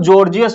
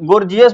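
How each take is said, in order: First: The word begins with a J sound. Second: The word begins with a hard G sound. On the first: The speaker calls it right. "इसका उच्चारण जो होता है जॉर्जियस होता है" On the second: The speaker calls it wrong. "बहुत सारे लोग गोर गोर्जियस भी पढ़ सकते हैं"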